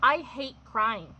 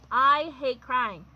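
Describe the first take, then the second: First: Said in the usual way. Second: "I hate crying" said slow and louder, each word pressed; slow down and lean hard on "I hate crying"; slower, louder repeat. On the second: Real, not acted.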